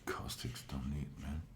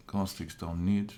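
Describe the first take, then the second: First: Hushed, mostly voiceless echo of himself; whispered aside. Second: Said in the usual way. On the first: Pretend. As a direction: whisper it under your breath as an aside. Whispered echo of own remark.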